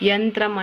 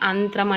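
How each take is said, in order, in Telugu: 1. ఈ పదం 'y' ధ్వనితో మొదలవుతుంది. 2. ఈ పదం నేరుగా అచ్చుతో మొదలవుతుంది. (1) "యంత్రం అంటే" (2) "అంత్రం అని పలకటం"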